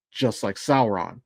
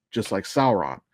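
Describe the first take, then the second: No difference in how they are said.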